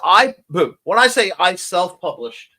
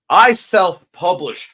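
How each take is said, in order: First: Said in the usual way. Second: "I self-published" slow and loud, leaning on "I"; stress on I self-published. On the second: Shown as a demonstration. To the stream friends, a slow, proud stress on "I self-published". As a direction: land "I self-published" slowly with weight on "I".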